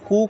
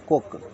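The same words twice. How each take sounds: First: The vowel is long, as in 'moon'. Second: The vowel is short, as in 'good'. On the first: The speaker calls it wrong. "इसको पढ़ेंगे कुक नहीं पढ़ेंगे" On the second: The speaker calls it right. "इसको हम पढ़ेंगे कुक"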